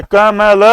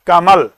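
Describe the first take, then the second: First: कमल as three full sounds ka-ma-la, final vowel voiced; पूरा ल. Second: कमल, with the final ल cut short, no vowel after it; आधा ल. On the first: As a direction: sound out कमल letter by letter, with an open "la" at the end. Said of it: "अगर आप कमला बोलते". (कमल को क-म-ल, तीनों अक्षर पूरे बोलकर) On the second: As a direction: say कमल ending on a bare l, tongue left up. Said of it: "ऊपर ही टंगी रह गई". (कमल, आख़िरी ल आधा, बिना अ के) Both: Shown as a demonstration.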